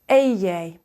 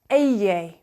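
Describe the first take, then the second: The two takes are said the same way.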